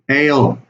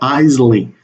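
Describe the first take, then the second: First: The word sounds like 'ale'. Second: The word sounds like 'easily'. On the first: The speaker calls it right. "The pronunciation of this word is ale" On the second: The speaker calls it wrong. "not easily"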